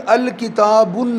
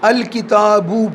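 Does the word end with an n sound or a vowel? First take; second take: n sound; vowel. First: The word ends with an added n sound. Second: The word ends on a plain vowel. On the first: The speaker calls it wrong. "अल किताबुन नहीं" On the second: The speaker calls it right. "अल किताबू पढ़ेंगे"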